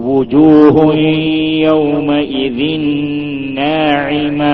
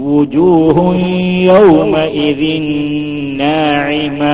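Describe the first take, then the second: No difference in how they are said.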